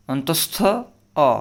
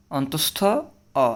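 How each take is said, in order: Both takes have the same delivery.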